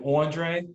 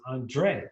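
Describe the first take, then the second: First: It is said in a Brooklyn accent. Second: It is said in a neutral accent. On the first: "a girl, especially from like Brooklyn, call me Andre" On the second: "the accent on the E"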